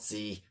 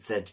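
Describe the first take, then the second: First: The letter is said as zee. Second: The letter is said as zed. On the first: This is the American way of saying it. "some Americans are already getting angry with me" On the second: This is the British way of saying it. "I'm British. I'm saying it right in my country"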